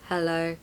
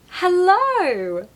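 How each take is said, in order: First: The pitch stays flat with no movement. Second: The pitch moves widely with lively energy. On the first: The speaker sounds uninterested. The speaker calls it wrong. "That's monotone" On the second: The speaker is excited to see the person. The speaker calls it right. "I want to show how excited I am to see them"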